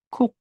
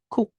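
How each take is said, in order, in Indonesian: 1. Kata ini berakhir pada bunyi k pendek di akhir. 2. Kata ini berakhir pada bunyi k pendek di akhir.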